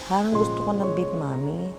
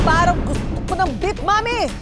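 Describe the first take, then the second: First: The line is said in a sad, gloomy tone. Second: The line is said in an angry, furious tone. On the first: "Paano naman magyaya ang sad girl?" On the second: "At ang panghuli ng aamok"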